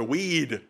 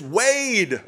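First: The name is said in a Minnesota accent. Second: The name is said in a general accent.

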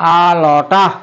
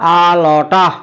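First: The words are reduced and run together. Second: The words are reduced and run together.

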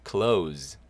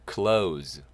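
No difference in how they are said.

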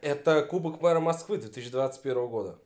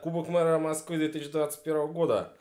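First: It is said harder, with more force and energy. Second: It is said with moderate, less forceful energy.

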